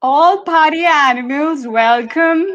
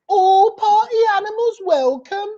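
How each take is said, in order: First: Hesitant Birmingham try, slow and higher; attempted Birmingham accent. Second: Birmingham accent, high, with a rising lilt. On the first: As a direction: give the Birmingham accent a go, slowly. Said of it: "Go for it, [name]". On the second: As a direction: show the Birmingham tune on the line. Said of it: "So in a Birmingham accent". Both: Shown as a demonstration.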